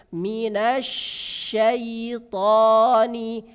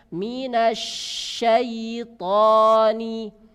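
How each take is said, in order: Both takes have the same delivery.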